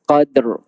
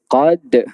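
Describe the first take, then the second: First: It ends with a voiceless d then an r. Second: It stops at the d with no r. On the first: The speaker calls it right. "Kena sebut dal yang mati, kena sebut juga ra yang mati" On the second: The speaker calls it wrong. "Dia tinggal huruf ra kat belakang tu"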